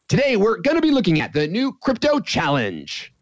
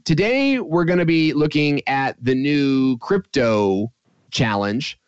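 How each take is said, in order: First: It is said quickly without hesitation. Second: It is said slowly with hesitation.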